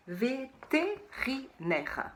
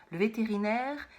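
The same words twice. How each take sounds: First: Vétérinaire drawn out slowly, syllable by syllable. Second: Said in the usual way. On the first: Shown as a demonstration. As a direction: spell out vétérinaire slowly for children. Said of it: "celui-là, il est dur". (vétérinaire détaché très lentement) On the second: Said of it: "c'est le docteur pour les animaux".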